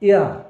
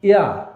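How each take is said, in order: No difference in how they are said.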